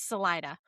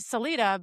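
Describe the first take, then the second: First: It uses the local-style pronunciation. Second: It uses a New York-style pronunciation. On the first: This is how the residents say the name. The speaker calls it right. "but I think it's" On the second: This is how an outsider would say the name. The speaker calls it wrong. "My New York mentality wants me to say"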